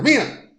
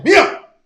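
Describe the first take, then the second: First: Not so loud. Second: Calling "Mía" sharply, much higher and louder; stern call. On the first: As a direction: call "Mía" firmly but toned down. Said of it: "Así, no tan fuerte". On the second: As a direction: snap the child's name to get her attention. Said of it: "vas a notar un tono". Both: Retold or imitated.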